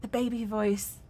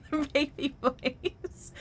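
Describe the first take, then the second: First: Said in the usual way. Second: Put-on high slow cooing baby talk; mock baby voice. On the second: Shown as a demonstration. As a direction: coo it slowly like to a baby.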